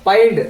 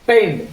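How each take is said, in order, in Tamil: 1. உயிரெழுத்து 'pie' என்பதில் இருப்பது போல ஒலிக்கிறது. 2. உயிரெழுத்து 'pay' என்பதில் இருப்பது போல ஒலிக்கிறது. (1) "பாயிண்ட் அப்படின்னு படிக்கக்கூடாது" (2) "பெயிண்ட் அப்படின்னு சொல்லி படிக்கணும்"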